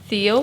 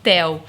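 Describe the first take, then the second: First: The name is pronounced the English way. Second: The name is pronounced the Portuguese way. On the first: This is how it sounds when speaking English. "quando ela fala em inglês, ela fala Theo" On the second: This is how it sounds when speaking Portuguese. "Quando ela fala em português, ela fala Theo"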